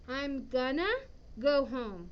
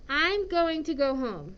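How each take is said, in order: First: Going to is reduced to one short word. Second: Going to is said fully as two words. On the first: "a lot of times English speakers will say instead" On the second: "the a positive would be"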